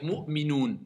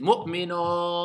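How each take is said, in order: First: The final vowel is a clear long 'oo'. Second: The final vowel sounds closer to 'o'. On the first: The speaker calls it right. "je vais finir le verset avec Mu'minoun" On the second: The speaker calls it wrong. "certains vont faire Mu'minon"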